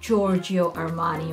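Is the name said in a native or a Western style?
Western. The name is said in a Western style. The speaker calls it wrong. "That's the Western style"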